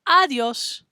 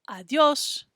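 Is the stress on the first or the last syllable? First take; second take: first; last. First: The stress is on the first syllable. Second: The stress is on the last syllable. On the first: The speaker calls it wrong. "instead of saying adios" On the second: The speaker calls it right. "I'm saying the O S part a little bit louder"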